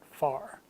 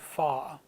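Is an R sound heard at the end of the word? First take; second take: yes; no. First: The word ends with an audible R sound. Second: A long vowel ends the word with no R. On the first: "not far" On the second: "in the British pronunciation of far, you'd say fa"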